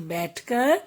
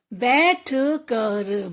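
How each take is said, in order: First: Said in the usual way. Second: "बैठ कर" split as बै-ठ क-र; teacher's broken-up "बैठ कर"; sounding out. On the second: Shown as a demonstration. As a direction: separate each sound of "बैठ कर". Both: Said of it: "कुछ ए के शब्द भी हैं".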